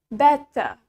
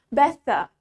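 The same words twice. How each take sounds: First: A clear T in the middle, faint R. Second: A clear T in the middle, faint R.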